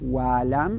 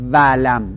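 First: It begins with a w sound, using both lips. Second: It begins with a v sound, using teeth and lip. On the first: The speaker calls it right. "ولم نه ولم" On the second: The speaker calls it wrong. "مخرج واو بین دو لب است، به دندون مربوط میشه"

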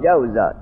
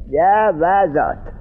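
First: The w sound is followed by no vowel. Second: The w sound is followed by an a vowel. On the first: The speaker calls it right. "همون جور به سکون بگو" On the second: The speaker calls it wrong. "اگر تابع میاوردیم چه میگفتیم؟"

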